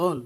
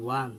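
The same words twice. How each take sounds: First: "own" as a plain OWN, no w; wrong pronunciation. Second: "won" said as WAN, with a w; correct pronunciation. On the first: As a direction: start "own" straight on the long o. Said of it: "not own". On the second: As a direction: open "won" with rounded w into an ah. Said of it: "won, not own". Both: Shown as a demonstration.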